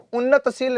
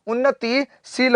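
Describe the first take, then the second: First: उन्नतशील said with a short a, no i after न; the incorrect form उन्नतशील, clearly sounded out; wrong spelling said aloud. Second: उन्नतिशील with a clear ति, said slowly; correct form stressed. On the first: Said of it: "उन्नतशील नहीं होता है". (उन्नतशील गलत रूप में, बिना इ के) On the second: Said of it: "उन्नतिशील होता है". (उन्नतिशील धीरे, ति पर ज़ोर देकर) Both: Shown as a demonstration.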